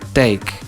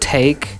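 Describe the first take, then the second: First: The first consonant has no puff of air. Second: The first consonant has a puff of air.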